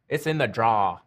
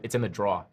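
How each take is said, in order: First: Draw is said the way locals say it. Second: Draw is said with a New York accent.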